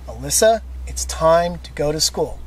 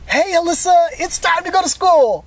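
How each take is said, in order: First: It is said in a steady, firm tone. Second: It is said in a light, playful tone. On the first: The request is serious and must be followed. The speaker calls it right. "I stayed consistent in my tone of my voice" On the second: The request sounds like part of a game. The speaker calls it wrong.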